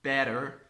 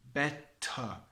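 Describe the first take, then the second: First: The final R sound is pronounced. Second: The final R is silent, ending on a vowel. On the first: The speaker calls it wrong. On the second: The speaker calls it right.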